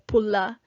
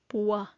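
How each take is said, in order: First: The middle consonant is an L sound. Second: The middle consonant is a W sound. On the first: This is how it is said in Mindanao. "if you're in Mindanao" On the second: This is how it is said in Cebu. "you go to Cebu, you'll probably hear pua"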